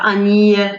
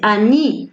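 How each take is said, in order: First: The final vowel is not a clear 'ee' sound. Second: The final vowel is a clear 'ee' sound. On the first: The speaker calls it wrong. "on ne dit pas Annie" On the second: The speaker calls it right. "c'est Annie. Ça se prononce I"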